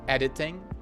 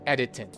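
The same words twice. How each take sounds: First: The word ends with a nasal ng sound. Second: The word ends with a plain n sound. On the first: "usually it should be the nasal ng, ng sound, like editing" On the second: "the final sound is often made into a, a straight up N sound"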